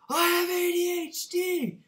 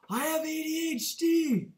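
First: It is screamed even more loudly. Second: It is screamed loudly.

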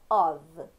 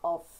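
First: The word ends with a v sound. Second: The word ends with an f sound. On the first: The speaker calls it right. "a gente fala of" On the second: The speaker calls it wrong. "A gente não fala off"

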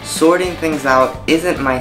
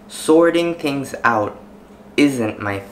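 First: The words flow together without breaks. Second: Each word is said separately with breaks. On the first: The speaker calls it right. "that sentence that I just recited had a lot of linking words" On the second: The speaker calls it wrong. "this time I'm not going to link these words"

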